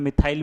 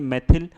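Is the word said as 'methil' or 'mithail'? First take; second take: mithail; methil. First: It is said as mi-thail, with a long 'ai'. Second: It is said as me-thil, with a short 'i'. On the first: This is a common spoken form. "बोलने में मिथाइल भी बोल देते हैं" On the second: This is the form used in the name. "पर ये मेथिल"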